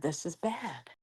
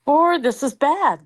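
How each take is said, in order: First: Much softer, under the breath; muttered. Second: Slow, higher, louder disapproval; disgusted. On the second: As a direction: draw it out, clearly disgusted. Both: Shown as a demonstration.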